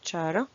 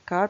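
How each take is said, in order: First: The word begins with a sh sound. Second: The word begins with a k sound. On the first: The speaker calls it wrong. "il y a des gens qui le prononcent char" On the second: The speaker calls it right. "la prononciation correcte c'est euh, car"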